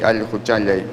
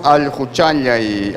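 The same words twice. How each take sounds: First: Al juchayay lower and falling; second pronunciation. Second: Slow al juchayay with the stress on al; first pronunciation. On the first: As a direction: let al juchayay drop low at the end. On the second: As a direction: draw out al juchayay and lean on al. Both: Shown as a demonstration. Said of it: "según la pronunciación, cambia el significado".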